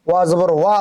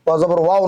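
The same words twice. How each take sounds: First: ওয়া as one open "wa"; ওয়া জবর ওয়া ending on clean "wa"; correct waw. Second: ওয়াও closing into "wao"; wrong waw. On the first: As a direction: say ওয়া with rounded lips opening to "aa". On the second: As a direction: end ওয়াও on an added o glide. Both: Shown as a demonstration. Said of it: "ওয়াও নয়".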